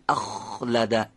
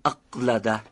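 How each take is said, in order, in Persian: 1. همخوان kh یک سایشی است. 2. این همخوان یک صدای انسدادی بسته است. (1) "این میشه سایشی گفتن" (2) "نمیگیم اقلده که انصدادی بشه"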